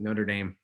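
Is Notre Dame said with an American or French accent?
American. It is said with an American, South Bend accent.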